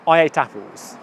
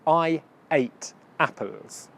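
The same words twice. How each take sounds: First: It is said at normal speed with words linked. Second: It is said slowly with words kept apart. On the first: "If I had said it at a normal speed" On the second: "I said the sentence really slowly to emphasize the words"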